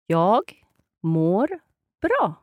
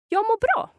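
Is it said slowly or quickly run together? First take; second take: slowly; quickly. First: It is said slowly, word by word. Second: It is said quickly, words run together.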